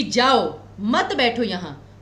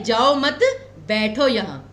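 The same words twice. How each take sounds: First: Slow "जाओ", break, then "मत बैठो यहाँ" falling lower; pause after जाओ. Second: "जाओ मत" as one unit, break, then "बैठो यहाँ"; pause after मत. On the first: Teacher showing how a break changes meaning to don't sit, pause after जाओ. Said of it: "विराम कहाँ पर लिया". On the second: Teacher showing the other meaning, don't go but sit, pause after मत. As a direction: keep मत joined to जाओ, pause before बैठो. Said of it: "और एक है". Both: Shown as a demonstration.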